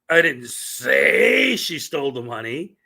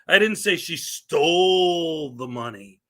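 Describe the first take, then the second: First: The word 'say' is stressed. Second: The word 'stole' is stressed. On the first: The words were never spoken aloud. "which means that those words never came out of my" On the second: She got the money some other way. "It means I didn't say she stole it"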